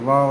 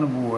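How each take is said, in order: First: The word is said as 'vaah', ending in 'ah'. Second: The word is said as 'vo', ending in 'o'. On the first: This follows the written spelling. The speaker calls it wrong. "मानक वर्तनी यही है" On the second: This is the standard spoken form. The speaker calls it right. "मानक उच्चारण वो है"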